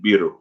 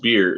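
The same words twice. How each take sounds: First: It ends with an added 'oo' vowel sound. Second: It ends on the plain final R sound. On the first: "they end it with like an ooh" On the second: "instead of just beer"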